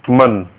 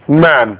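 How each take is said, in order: First: The vowel sounds like the u in cup. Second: The vowel sounds like the a in cat. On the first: The speaker calls it right. "It should be mun" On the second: The speaker calls it wrong. "as in the English word man, but that's not the proper pronunciation"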